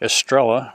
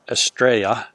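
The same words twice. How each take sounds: First: The name is said with English sounds. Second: The name is said with Spanish sounds. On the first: It follows local usage. "when in Arkansas, do as the Arkansans do" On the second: It follows the original language. "if you're going to critique me on my Spanish"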